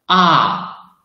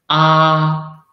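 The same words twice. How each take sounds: First: The syllable is said in the fourth tone. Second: The syllable is said in the first tone. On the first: "the fourth tongue" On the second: "the first tongue"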